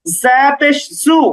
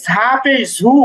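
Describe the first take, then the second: First: "ঝা পেশ জু" slowly with a pure z, no h; "ঝা" as za, "জু" as zu, unaspirated; correct buzzing z. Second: "ঝা পেশ ঝু" with a breath puff after each z; wrong aspirated sound. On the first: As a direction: hold a buzzing z in "জু". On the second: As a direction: mistaken take, "ঝু" said as zhu with an h. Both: Shown as a demonstration. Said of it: "কখনোই ঝা পেশ ঝু এমন না".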